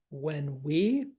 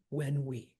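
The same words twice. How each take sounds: First: Slow "when WE", rising on we; stress on WE. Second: WHEN strong, "we" falling away; trochee, stress on WHEN. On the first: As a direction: lean on the pronoun "we", lifting it. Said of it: "again, pronouns, no". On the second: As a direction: hit "when" and drop off on "we". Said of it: "trochee when we". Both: Shown as a demonstration.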